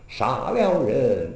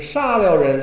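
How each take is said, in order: First: 杀 is said low and very short. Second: 杀 is said high and level. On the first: The speaker calls it right. "都是杀了人杀" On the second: The speaker calls it wrong. "而不是杀了人"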